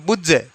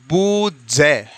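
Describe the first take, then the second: First: It is said fast. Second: It is said slowly.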